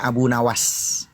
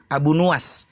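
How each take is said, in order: First: The second word's first vowel is 'a'. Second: The second word's first vowel is 'u'. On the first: This is the form commonly used locally. "Kita menyebutnya Abu Nawas" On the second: This is the original historical form of the name. "Kalau bahasanya sejarahnya itu namanya Nuwas"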